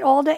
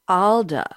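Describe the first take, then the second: First: It is said in a plain American accent. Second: It is said in a put-on British accent.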